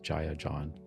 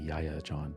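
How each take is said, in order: First: The first name begins with a J sound. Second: The first name begins with a Y sound.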